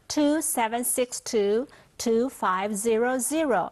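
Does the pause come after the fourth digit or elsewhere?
fourth digit. The digits are split into two groups of four. The speaker calls it right. "分四码，四码"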